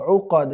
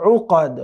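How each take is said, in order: Both takes have the same delivery.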